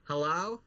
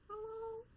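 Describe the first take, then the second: First: Said in the usual way. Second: Very high, very soft faraway voice; tiny creature calling from the bottle; tiny distant voice. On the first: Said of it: "I'd unscrew the cap and I'd go". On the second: Retold or imitated. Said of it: "those exist within this water".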